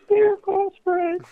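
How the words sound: It is said in a high falsetto voice.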